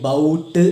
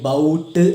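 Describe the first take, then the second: First: The vowel is 'ow', as in 'out'. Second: The vowel is 'ow', as in 'out'.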